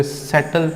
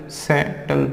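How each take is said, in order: First: Said in the usual way. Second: सेटल broken as से-टल; split into syllables. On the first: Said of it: "देखो इनको पढ़ना कैसे है". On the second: Shown as a demonstration. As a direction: hold से, then say टल as one unit in सेटल. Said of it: "टल कभी भी हमेशा एक साथ पढ़ना".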